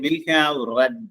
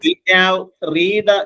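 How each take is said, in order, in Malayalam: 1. read എന്ന വാക്കിൽ ഹ്രസ്വമായ e സ്വരമുണ്ട്. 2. read എന്ന വാക്കിൽ ദീർഘമായ ee സ്വരമുണ്ട്. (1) "റെഡ് എന്നാണ്" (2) "വിൽ ഹാവ് റീഡ് എന്ന് പറയരുത്"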